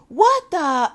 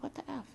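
First: Put-on high, loud childish blurt; loud copycat kid outburst. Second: Barely audible muttered shock; tiny hushed aside to yourself; under her breath. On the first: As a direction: blurt it out for all to hear. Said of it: "And he said it loud". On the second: Retold or imitated. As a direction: mutter it very softly, pitched up. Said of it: "Like, under her breath, she was like".

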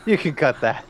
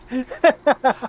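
First: Said in the usual way. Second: Plain. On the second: Real, not acted. Repeat of request, louder.

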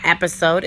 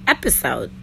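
First: "episode" said the wrong way, with an A sound in the middle; wrong pronunciation. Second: Fix it and say "episode" properly; correct pronunciation. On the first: Correcting herself, she first says "episode" with an A. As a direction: mispronounce "episode" on purpose, with an A. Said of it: "I've been saying episode, like, with an A". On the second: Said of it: "it's not episode, it's episode". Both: Shown as a demonstration.

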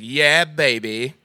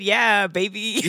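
First: Put-on slow drawn-out yeah baby; Austin Powers. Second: Mom voice. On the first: Caller does Austin Powers, a lazily drawn-out yeah baby. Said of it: "he's a guy who's like". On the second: Pretend. Mom voice attempt, slow cooing yeah baby. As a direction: coo it like a doting mom. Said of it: "a mom voice?".

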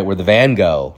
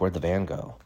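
First: "van go" said out clearly to land the pun; pun emphasis. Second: Quiet puzzled question. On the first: Shown as a demonstration. Comic repeats "van go" for the Starry Night joke, emphasized clearly. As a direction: punch "van go" so it sounds like the painter. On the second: Retold or imitated. Kid finds the van gone, quiet puzzled question. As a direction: ask it under your voice, thrown away. First take, before explaining pun.

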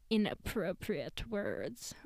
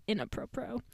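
First: Said in the usual way. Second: "inappropriate" said as in-a-PRO-pro, clipped ending, rising; own quirky pronunciation. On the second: Shown as a demonstration. Vlogger shows viewers her own version of "inappropriate", said playfully with a clipped ending. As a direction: her pet way of saying "inappropriate", ending on a rise. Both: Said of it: "or as I would say".

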